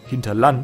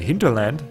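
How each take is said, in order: First: It is pronounced the German way. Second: It is pronounced the English way.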